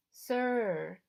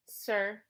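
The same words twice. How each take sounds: First: A smooth, understated correction; smooth prompting. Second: Said in the usual way. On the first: Acted. Charon prompts the boy for respect, smoothly. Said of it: "he added smoothly". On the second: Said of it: "I said".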